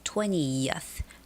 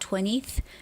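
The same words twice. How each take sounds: First: A y glide is heard before the ending. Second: No y glide is heard before the ending. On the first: The speaker calls it right. "it's that y sound that makes the difference" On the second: The speaker calls it wrong. "It's not twentieth"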